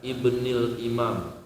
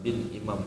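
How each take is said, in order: First: It starts with a full syllable, ibnil. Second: It starts with the short form, bin. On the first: "kalau pakai alif Ibnil Imam" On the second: "kalau langsung bin aja itu juga boleh"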